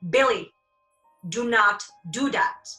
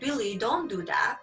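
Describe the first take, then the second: First: The voice is strong and forceful. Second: The voice is soft and lacks force. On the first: The listener will pay more attention. The speaker calls it right. "The sound vibration is more potent" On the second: The listener will not take it seriously. The speaker calls it wrong. "Do you think you're gonna take me seriously?"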